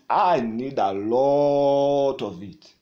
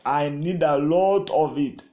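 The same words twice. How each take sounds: First: Slow plea. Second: Said in the usual way. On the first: Shown as a demonstration. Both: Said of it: "crying out to God".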